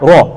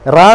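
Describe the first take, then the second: First: The r sound is heavy and thick. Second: The r sound is light and thin. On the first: The speaker calls it right. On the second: The speaker calls it wrong.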